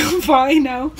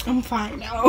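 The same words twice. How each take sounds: First: "I'm fine now" with "fine" stretched and rising; a drawn-out "fine", rising at the end; insistent reply. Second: A quiet "I'm fine now", trailing down; soft reply. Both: Retold or imitated. Repeated reply while embarrassed.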